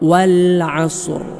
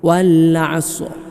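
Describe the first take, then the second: First: The final r sound is clearly heard. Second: The final r sound is almost missing. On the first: The speaker calls it right. "റാഇൻ്റെ അസർ ഉണ്ടാവണം" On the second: The speaker calls it wrong. "ഇപ്പോൾ റാ ഇല്ലാത്തതുപോലെയാണ് കേൾക്കുമ്പോൾ"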